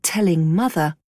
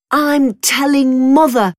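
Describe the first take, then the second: First: Said in the usual way. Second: High, loud tattletale shout; boy shouting. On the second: Acted. Brother threatens to tell on his sister, shouting. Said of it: "shouted Tom".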